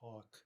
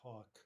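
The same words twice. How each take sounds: First: The L sound is left out of the word. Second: The same.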